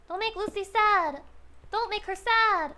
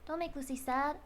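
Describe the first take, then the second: First: High, insistent whiny plea; mock pleading. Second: Said in the usual way. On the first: Streamer telling chat not to make Lucy sad, pleading. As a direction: beg chat with hammed-up urgency.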